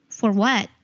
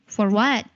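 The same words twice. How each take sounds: Both takes have the same delivery.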